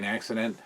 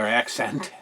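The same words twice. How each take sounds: First: "accent" slurred into "accident"; slip of the tongue. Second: Said in the usual way. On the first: Real, not acted. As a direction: stumble over "accent" as "accident". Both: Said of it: "or accent".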